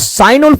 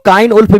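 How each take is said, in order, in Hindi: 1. नाम S ध्वनि से शुरू होता है। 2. नाम K ध्वनि से शुरू होता है। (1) "साइन उल्फ बोलिए" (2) "इसी को काइन उल्फ भी बोला जाता है"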